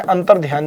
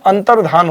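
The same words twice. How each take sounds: First: अंतर्ध्यान with a य glide after ध; incorrect pronunciation. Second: अंतर्धान with plain धा, no य glide; correct pronunciation. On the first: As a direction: say अंतर्ध्यान ending like ध्यान, softer. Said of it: "अंतर्ध्यान नहीं होता है". (अंतर्ध्यान, य जोड़कर गलत उच्चारण) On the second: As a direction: say अंतर्धान clearly, ending in धान. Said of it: "तो अंतर्धान होता है". (अंतर्धान, बिना य के, साफ़ उच्चारण) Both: Shown as a demonstration.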